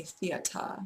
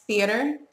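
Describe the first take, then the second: First: "theater" with stressed AH and no final r, thee-uh-TAH; mock-grand "theater", ending in an open ah; pretend-fancy theater. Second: Said in the usual way. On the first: Speaker pretending for fun, theater as thee-uh-tah. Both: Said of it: "I like to pretend and say theater".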